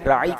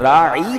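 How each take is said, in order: First: The final vowel is short. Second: The final vowel is drawn out long. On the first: It asks for consideration. The speaker calls it right. "राई का मतलब हमारी रियायत कीजिए" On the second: It means shepherd, as an insult. The speaker calls it wrong. "अगर राई बना दे कोई तो उसका मतलब बनता है चरवाहा"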